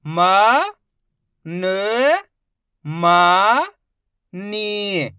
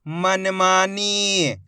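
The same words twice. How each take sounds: First: Each syllable stretched very slowly; slow sounding-out for a child; drawn-out syllables. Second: मनमानी said as one smooth word, slowly; blended reading. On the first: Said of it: "एक एक अक्षर का उच्चारण करके". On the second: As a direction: join it all together. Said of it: "मिला के पढ़ देंगे". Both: Shown as a demonstration.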